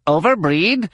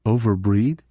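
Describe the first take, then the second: First: High, sharp disbelieving echo; incredulous question. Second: Said in the usual way. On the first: A narrator's reading. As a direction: throw the word back at her in disbelief. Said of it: "Plee questions the word". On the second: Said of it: "Leia reflected".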